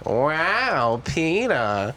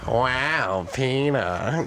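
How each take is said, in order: First: It is a higher-pitched Lois impression. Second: It is a lower-pitched Lois impression.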